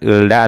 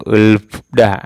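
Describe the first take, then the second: First: An l sound precedes da. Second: An l and f sound precede da. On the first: "bukan ulda atau ulfda. Salah ya" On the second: "bukan ulda atau ulfda. Salah ya"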